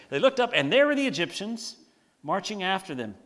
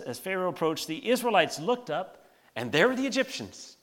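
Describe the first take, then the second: First: Cartoon retelling. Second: Said in the usual way. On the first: Shown as a demonstration. Pastor retelling the Egyptians' arrival as a cartoon, hammed-up. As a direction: play the reveal like a cartoon gag. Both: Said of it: "Doesn't it sound like a cartoon".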